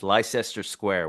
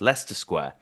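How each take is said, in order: First: Leicester is said fully, following its spelling. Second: Leicester is said in its short local form. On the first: The speaker calls it wrong. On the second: The speaker calls it right.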